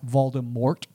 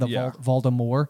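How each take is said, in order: First: The final T sound is clearly pronounced. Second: The final T sound is left silent. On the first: "starts to refer to him as Voldemort" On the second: "it's a silent T at the end"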